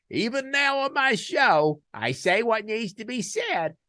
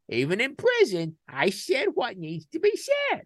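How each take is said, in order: First: High, loud, slow "said what needs to be said"; emphatic declaration. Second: Even higher, loud, punching "said what needs to be said"; emphatic echo. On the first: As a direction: land each word like a personal motto. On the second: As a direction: hammer the line home a second time. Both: Real, not acted. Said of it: "repeated for emphasis".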